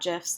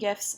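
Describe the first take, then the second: First: The word begins with a J sound. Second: The word begins with a hard G sound. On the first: The speaker calls it wrong. "not GIFs" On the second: The speaker calls it right. "I call them GIFs, The G stands for graphic"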